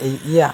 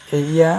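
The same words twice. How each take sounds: The two takes are said the same way.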